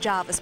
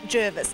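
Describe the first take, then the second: First: The first syllable sounds like 'jar'. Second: The first syllable sounds like 'jer'. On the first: This is not the official pronunciation. The speaker calls it wrong. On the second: This is the official pronunciation. The speaker calls it right. "officially it is now"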